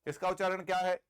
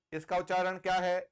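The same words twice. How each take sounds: The two takes are said the same way.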